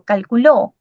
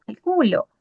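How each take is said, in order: First: Calculó with the final syllable lengthened and accented; stress on the last syllable. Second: Calculo with the middle syllable cal-CU-lo leaned on; stress on the middle syllable. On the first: Teacher showing the class the past tense calculó, stress on the last syllable. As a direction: land firmly on the ending of calculó. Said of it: "Está en tiempo pasado". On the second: Teacher showing the class the present tense Calculo, stress on the middle syllable. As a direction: lean on the middle of Calculo, ending falls soft. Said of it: "me habla en tiempo presente".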